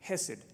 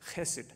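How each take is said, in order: First: The word begins with a plain, soft h sound. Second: The word begins with a rough, throaty ch sound.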